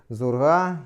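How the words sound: The word begins with a z sound. This is the literary standard form. "остановимся на литературном варианте"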